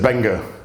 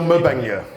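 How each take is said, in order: First: The name starts straight with a B sound. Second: The name starts with a sounded M syllable. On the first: "yeah, it's silent" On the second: "Must be an apostrophe in it"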